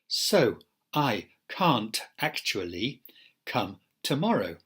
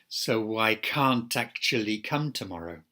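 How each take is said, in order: First: Every sound is said fully and separately. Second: Words link together with mild connected-speech changes. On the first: "isolated forms where we protect every segment" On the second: "applying connected speech rules"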